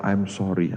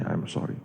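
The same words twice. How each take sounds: First: Said in the usual way. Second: Breathy whisper on "I'm sorry", voice dropping away; whispered apology. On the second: Retold or imitated. Policewoman hugging the grieving mother, whispering "I'm sorry".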